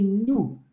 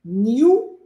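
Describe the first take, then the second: First: "nu" drawn out slowly as noo; new without glide. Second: "New" drawn out slowly as nyoo; new with glide. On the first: Teacher contrasting two sounds for students, "nu" as noo. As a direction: stretch "nu", N straight into oo. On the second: Teacher contrasting two sounds for students, "New" as nyoo. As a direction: stretch "New" with a Y after the N. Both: Shown as a demonstration. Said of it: "Viu a diferença?".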